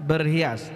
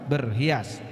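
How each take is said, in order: No difference in how they are said.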